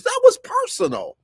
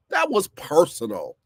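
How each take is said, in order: First: That was personal, with was flung up high and a bit louder; emphatic. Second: Said in the usual way. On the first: Real, not acted. Host insisting to listeners the firing was personal, emphatic high stress. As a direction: hammer home that it was personal. Repeating his point with emphasis.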